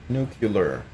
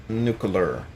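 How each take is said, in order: The two takes are said the same way.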